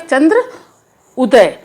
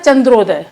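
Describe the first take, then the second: First: The two words are said separately. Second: The two words merge into one quick word.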